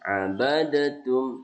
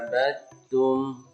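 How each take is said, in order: First: The d is released separately before the t. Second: The d merges straight into the t. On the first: The speaker calls it wrong. "maka dia tidak dibaca abadatum" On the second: The speaker calls it right. "dimasukkan langsung diidghamkan ya"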